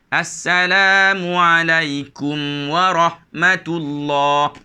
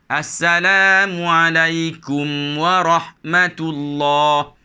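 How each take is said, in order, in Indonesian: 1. Bacaan mengalir lancar melewati bunyi mim. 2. Bacaan mengalir lancar melewati bunyi mim.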